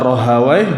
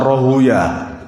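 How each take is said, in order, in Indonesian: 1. Nama itu berakhiran bunyi 'wai'. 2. Nama itu berakhiran bunyi 'ya'. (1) "itu bisa dibaca Rahawai" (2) "bisa Rohuya"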